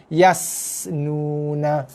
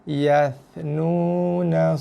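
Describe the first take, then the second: First: The second consonant is a plain 's' sound. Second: The second consonant is a 'th' sound. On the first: The speaker calls it wrong. "bunyi huruf sin... bunyi yang salah sama sekali" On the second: The speaker calls it right. "Ya dengan sa"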